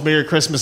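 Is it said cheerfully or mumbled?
mumbled. It is mumbled flatly and without interest.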